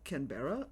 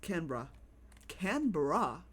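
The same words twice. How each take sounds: First: Canberra with a full "BEAR-uh" ending; default pronunciation. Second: Canberra squeezed to "CAN-bruh"; alternative pronunciation. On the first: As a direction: say "Canberra" as can-BEAR-uh, questioning. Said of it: "that's how I would default to". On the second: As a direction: say "Canberra" as can-BRAH, no "bear". Trying out the other pronunciation. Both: Shown as a demonstration.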